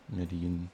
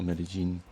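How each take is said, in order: First: Medellin as "meh-deh-YEEN", double L as a soft glide; regional Spanish pronunciation. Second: Medellin as "meh-deh-ZHEEN", double L as zh; alternative regional pronunciation. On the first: Showing one country's way of saying the city, soft-y Spanish pronunciation. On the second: Showing another Latin American country's way, zh-sound Spanish pronunciation. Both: Shown as a demonstration. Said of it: "Latin American country you are from".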